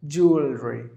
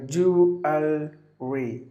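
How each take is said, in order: First: Said in the usual way. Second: Syllable by syllable. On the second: Shown as a demonstration. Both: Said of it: "three syllables".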